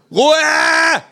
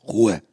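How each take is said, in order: First: Full high-pitched yell; screamed. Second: Said in the usual way. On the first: A narrator's reading. Migraine sufferer to noisy kangaroo, screamed. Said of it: "schrei ich".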